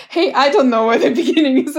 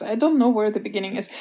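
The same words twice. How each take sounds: First: Louder, fast, laughing mock of the complaint; mocking echo. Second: Said in the usual way. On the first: Author mocking publishers' feedback, fast laughing echo. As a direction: throw the complaint back, half laughing.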